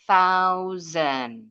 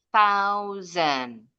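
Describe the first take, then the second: The two takes are said the same way.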